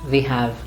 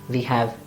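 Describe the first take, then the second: No difference in how they are said.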